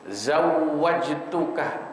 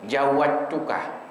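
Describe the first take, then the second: First: The word starts with a z sound. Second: The word starts with a j sound. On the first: The speaker calls it right. "zai dulu baru jim" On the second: The speaker calls it wrong. "jim semua jadinya"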